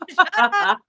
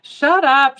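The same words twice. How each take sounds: First: Echoing high and loud, laughing; mock shut up. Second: Higher, louder teasing shut up; playful shut up. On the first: Friend echoing the retort, mock indignant. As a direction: repeat it back with a laugh. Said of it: "Shut up, she said". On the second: Retold or imitated. Teasing her friend back, playful shut up. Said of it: "she said".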